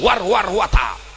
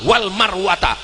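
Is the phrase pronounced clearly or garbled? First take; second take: garbled; clear. First: The phrase is mumbled with slurred, garbled sounds. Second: The phrase is pronounced clearly and accurately. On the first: The reciter is just copying without knowing the verse. The speaker calls it wrong. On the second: The reciter knows the verse. The speaker calls it right.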